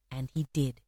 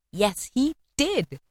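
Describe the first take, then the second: First: Low, soft aside; understated confirmation. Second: DID drawn out and pitched high; slow down, swoop up on "did"; emphatic confirmation. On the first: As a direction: drop the voice and state it simply. Quiet statement before emphatic repeat. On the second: Emphatic repeat of the statement. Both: A narrator's reading.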